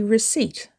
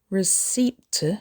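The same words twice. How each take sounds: First: The P in the word is silent. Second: The P in the word is sounded. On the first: The speaker calls it right. "The P is silent" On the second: The speaker calls it wrong. "Don't say receipt"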